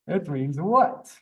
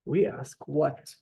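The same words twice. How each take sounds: First: It means what? said slowly, what rising at the end; slow question. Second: Said in the usual way. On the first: Shown as a demonstration. Teacher showing the class how to ask, slowly. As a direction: draw out it means what? and let what rise. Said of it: "This is how we ask what". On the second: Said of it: "This is how".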